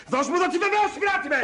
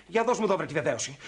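First: High, heated order; angry demand. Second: Said in the usual way. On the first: Acted. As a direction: demand it back, losing your temper. Demand escalates into a scuffle. (οργισμένη, ψηλόφωνη απαίτηση)

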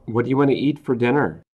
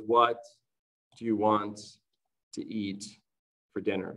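First: Said in the usual way. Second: "What do you want to eat for dinner?" pulled apart, each word with a pause after it; careful dictation for learners; slow word by word. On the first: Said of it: "that was naturally spoken". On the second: Shown as a demonstration. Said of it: "So here, that was naturally spoken".

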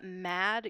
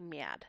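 First: Said in the usual way. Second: "miad", mad with a tense, raised gliding A; tensed raised vowel. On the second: Shown as a demonstration. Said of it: "a tensing raising of the vowel".

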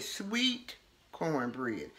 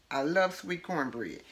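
First: Very slow, soft, lower drawn-out "sweet cornbread"; dreamy craving, slow and hushed; savoring. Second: Said in the usual way. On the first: Real, not acted. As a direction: linger lovingly over "sweet cornbread", much softer. Savoring favorite food.

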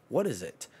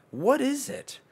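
First: Said in the usual way. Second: High cartoon squeak; squeaky high voice. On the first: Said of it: "playful intro questions". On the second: Shown as a demonstration. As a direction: ask it in a tiny squeaky voice. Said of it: "high squeaky repeat".

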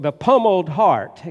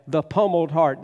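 First: Pummeled said louder, landing hard; stress on Pummeled. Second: Said in the usual way. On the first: Shown as a demonstration. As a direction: lean into the word Pummeled. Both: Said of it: "and you hear the sound of that".

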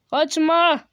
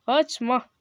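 First: Louder, higher call not to flee; raised-voice command to stay. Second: Said in the usual way. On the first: Real, not acted. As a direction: shout after someone running off. Calling to fleeing figure.

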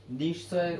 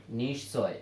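First: নিশ্চয় broken into nish, pause, choy; নিশ্চয় syllable by syllable with a gap; pronunciation demonstration. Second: Said in the usual way. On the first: Shown as a demonstration. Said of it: "নিশ্চয় উচ্চারণটা হবে নিশ্চয়". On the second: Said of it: "এটা হলো উচ্চারণ".

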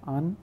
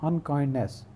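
First: unkindness split into un, kind, ness with long pauses; three separate sounds. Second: Said in the usual way. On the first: Shown as a demonstration. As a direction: say unkindness one syllable at a time. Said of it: "हम तीन आवाज़ें निकालेंगे". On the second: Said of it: "जिसको हम कहते हैं".

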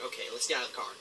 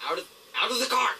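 First: Said in the usual way. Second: Louder, faster, higher urging; urgent shout. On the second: Real, not acted. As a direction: call it out quick and urgent. Repeats the line louder.

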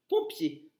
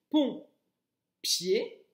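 First: Said in the usual way. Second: "pont, pied" as two separate beats; split into syllables. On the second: Shown as a demonstration. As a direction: pause between "pont" and a rising "pied". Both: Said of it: "Bien articuler".

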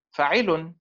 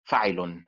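First: فاعل with the beat on عـ, said higher; فاعل stressed on عـ, not on فا; stress on the ع vowel. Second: فاعل with the beat on فا; فاعل stressed on فا, the rest lighter; stress on first syllable. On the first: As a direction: push the middle syllable of فاعل. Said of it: "لا بد أن تكون حركة العين أقوى". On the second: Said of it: "فالحركة المنبورة هي حركة الفاء". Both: Shown as a demonstration.

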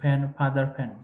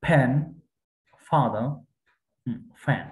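First: ফ্যান and ফাদার all begun with an aspirated p; wrongly identical sounds. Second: ফ্যান and ফাদার each given its own careful first consonant; distinct sounds. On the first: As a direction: pop ফ্যান, ফাদার from both lips alike. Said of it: "একই রকম হবে না". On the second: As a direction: separate ফ্যান, ফাদার, ফ্যান with pauses, airy f in ফাদার. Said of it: "এক একটা এক এক রকমের sound হবে". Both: Shown as a demonstration.

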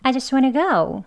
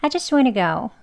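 First: I just wanna go higher, go falling at the end; different intonation. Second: I just wanna go run together, I as 'ah'; short 'ah' for I, glide to go; weak reduced I. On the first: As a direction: raise the line, drop on go. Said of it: "조금 다른 억양으로 인토네이션으로". (높게 시작해 go에서 내리는 억양) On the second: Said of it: "아 발음으로 할게요". (I를 '아'로 짧게, 이어서) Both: Shown as a demonstration.

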